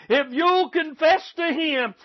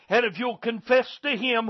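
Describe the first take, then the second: First: Higher and slower, leaning on "you'll"; urgent preacher's second call; pleading repeat. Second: Said in the usual way. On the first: Acted. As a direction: stretch "if you'll confess to him" into a plea.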